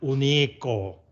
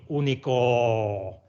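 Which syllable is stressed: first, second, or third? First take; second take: second; third. First: The stress is on the second syllable. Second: The stress is on the third syllable. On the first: "No es único" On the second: "ni único"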